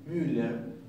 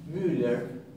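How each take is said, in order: Both takes have the same delivery.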